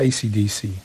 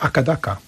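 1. Wymawia się ją jako oddzielne, przeliterowane litery. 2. Wymawia się ją razem jako jedno słowo, akadaka. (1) "W Australii nie mówi się AC/DC" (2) "Mówi o Akadaka"

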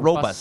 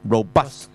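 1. 重音在第一个音节上。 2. 重音在第二个音节上。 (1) "你咪读呢个robust 啦" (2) "原来佢咧嗰个重音就唔喺嗰度嘅"

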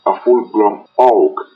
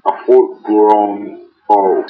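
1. La frase se dice rápida y apresuradamente. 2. La frase se dice lenta y tranquilamente.

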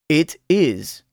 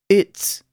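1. Ambas palabras se dicen completas y por separado. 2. Las palabras se unen en una sola sílaba corta. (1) "Primero oirá el verbo sin contracción" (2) "luego contraído con el pronombre personal"

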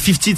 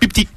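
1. Le mot commence par un son F. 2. Le mot commence par un son P. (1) "au lieu de dire 50" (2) "Ils te disent pipti"

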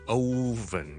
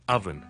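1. 第一个元音是长音，不像 'of'。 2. 第一个元音是短音，像 'of' 里的那样。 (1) "我哋唔需要读oven 嘅" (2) "是oven, of, of，就好像我们读譬如讲譬如other"

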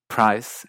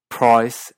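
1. Se dice con acento inglés estadounidense. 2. Se dice con acento inglés australiano. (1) "en partes de Estados Unidos" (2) "en partes de Australia"

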